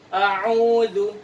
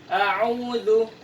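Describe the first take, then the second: No difference in how they are said.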